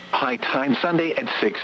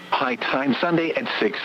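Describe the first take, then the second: No difference in how they are said.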